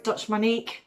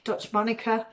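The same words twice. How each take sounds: First: Monique said mo-NEEK, ending in a long "ee"; trying a pronunciation. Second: Monica said MON-i-kuh, stressed at the front; alternative pronunciation. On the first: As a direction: say Monique as two syllables, "mo-NEEK". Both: Shown as a demonstration. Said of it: "can't pronounce it right".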